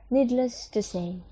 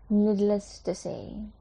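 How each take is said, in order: First: Needless to say with stress on needless; model phrase. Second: Needless to say repeated slowly with rise on needless. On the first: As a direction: present Needless to say to the class. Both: Shown as a demonstration. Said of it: "Jadi ini bahasa Indonesianya".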